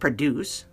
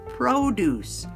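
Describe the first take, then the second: First: The O sound is not a long O. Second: The O sound is a long O. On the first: It is the verb meaning to make something. "Produce, the verb" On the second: It is the noun meaning fruits and vegetables. "Now that it's a long O sound"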